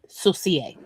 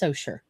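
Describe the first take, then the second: First: It is said with French pronunciation. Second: It is said with local Mississippi pronunciation. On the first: The speaker calls it wrong. "the French would say saucier" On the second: The speaker calls it right. "It is pronounced Saucher"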